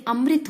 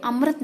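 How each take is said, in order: First: Said in the usual way. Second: अमृत said "amrat", A after the R; mispronounced vowel. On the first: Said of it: "अमृत होता है". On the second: Shown as a demonstration. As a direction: swap the "ri" in अमृत for "ra". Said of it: "नहीं अमृत होता है".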